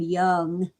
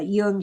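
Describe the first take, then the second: First: The name sounds like the English word young. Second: The name has a German short oo vowel. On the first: "it's okay to call him Young. We're Americans" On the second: "I pronounce it the way Germans would"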